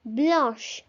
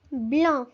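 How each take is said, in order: First: Blanche, nasal an then sh sound; feminine blanche. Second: Blanc with nasal an, silent c; Blanc, no final consonant heard; masculine blanc. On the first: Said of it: "blanche is feminine". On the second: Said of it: "Blanc is masculine". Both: Shown as a demonstration.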